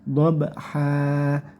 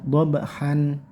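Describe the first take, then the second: First: The word ends in a long vowel without n. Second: The word ends with an added n sound. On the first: The speaker calls it right. "cukup panjangkan satu alif tanpa n" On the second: The speaker calls it wrong. "ditambah n ya"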